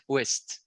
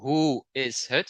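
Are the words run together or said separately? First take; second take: run together; separately. First: The words are run together as one. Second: Each word is said separately and clearly. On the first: This is how people actually speak. "you have something like connected speech" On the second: This is the form seen in books. "Instead of"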